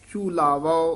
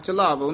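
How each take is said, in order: First: The first vowel is a long oo sound. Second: The first vowel is a short a sound. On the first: The speaker calls it right. "ये ਝੂਲਾਵੋ उच्चारण करना" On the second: The speaker calls it wrong. "ਝਲਾਵੋ नहीं कहना"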